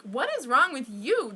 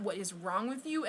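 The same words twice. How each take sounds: First: Louder, emphatic comeback question; retold indignant retort. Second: Understated, softer retold scolding; retold appalled mother. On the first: Child fires back at appalled mother, retold indignant retort. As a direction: throw the scolding back, louder. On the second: Mom scolds her child for speaking up, retold appalled scolding. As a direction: imitate mom's scolding, toned down. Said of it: "my mom was just appalled, and she was pissed at me".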